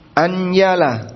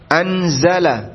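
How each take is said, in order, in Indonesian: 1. Konsonan tengahnya bunyi y. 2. Konsonan tengahnya bunyi z. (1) "Karena za-nya berubah jadi iya. Dan itu mengubah makna" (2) "Za bisa?"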